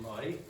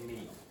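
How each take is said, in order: First: The word ends in an 'eye' vowel. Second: The word ends in an 'ee' vowel. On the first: "instead of saying my" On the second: "Irish people very often ... will say me"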